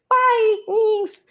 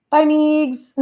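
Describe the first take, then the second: First: Much higher, squeaky "Bye, Meegs"; exaggerated high-pitched "Bye, Meegs"; mock sign-off. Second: Higher and louder playful bye; sing-song farewell to a friend; cheeky higher "Bye, Meegs"; teasing goodbye. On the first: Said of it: "I'm getting fired up and then, like". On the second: Acted.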